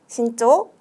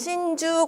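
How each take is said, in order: First: The second syllable is pronounced 'cho'. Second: The second syllable is pronounced 'ju'. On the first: The speaker calls it right. "주가 아니라 초로 발음이 되는" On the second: The speaker calls it wrong. "여기서 신난다고 여러분 신주 골라주시면 안 돼요"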